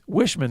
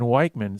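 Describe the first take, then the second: First: The middle consonant is a soft sh sound. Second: The middle consonant is a hard k-like sound. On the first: The speaker calls it right. "that sounds way better actually" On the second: The speaker calls it wrong. "I've been saying it wrong this whole time"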